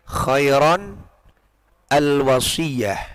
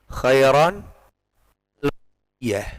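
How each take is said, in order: Both takes have the same delivery.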